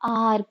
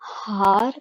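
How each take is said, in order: First: The word starts with a vowel, no h. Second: The word starts with an audible h sound. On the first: The speaker calls it right. "एच यहाँ पे silent है" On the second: The speaker calls it wrong. "हम हार pronounce नहीं करते"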